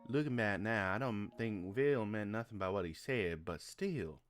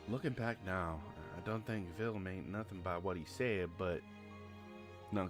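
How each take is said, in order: First: It is read in a put-on accent. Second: It is read in his natural voice.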